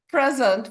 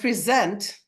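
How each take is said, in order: First: The stress is on the first syllable. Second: The stress is on the second syllable. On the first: It is a noun meaning a gift. "which is a noun, which is a gift, and the syllable stress is on the first part of the word" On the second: It is a verb meaning to give something. "which is the verb, which means to give you something"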